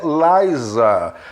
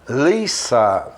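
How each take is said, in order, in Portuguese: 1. A consoante do meio é o som de Z, como um zumbido. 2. A consoante do meio é o som de S, como um chiado. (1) "não é Liza" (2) "Essa aqui é com S, é Lisa"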